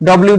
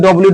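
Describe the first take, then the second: Both takes have the same delivery.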